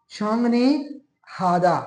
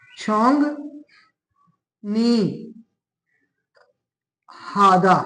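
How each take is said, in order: First: छोंग नी हादा run together as one word, stress on नी; Korean word joined up. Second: छोंग नी हादा spoken slowly, one syllable at a time with pauses; Korean word syllable by syllable. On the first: Teacher to students, reading the whole Korean word smoothly. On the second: Teacher to students, reading the Korean word syllable by syllable. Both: Shown as a demonstration. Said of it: "क्या पढ़े, ये इसको".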